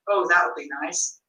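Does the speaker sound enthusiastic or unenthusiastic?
unenthusiastic. It is said flatly, without any enthusiasm. The speaker does not really think it is nice. The speaker calls it wrong. "how you seem to lack enthusiasm"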